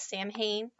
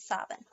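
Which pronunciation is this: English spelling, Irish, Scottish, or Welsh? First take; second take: English spelling; Scottish. First: It is read as the English spelling suggests. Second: It is said with the Scottish pronunciation. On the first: The speaker calls it wrong. "it looks like it should be pronounced as Samhain" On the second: The speaker calls it right. "And in Scotland is Samhain"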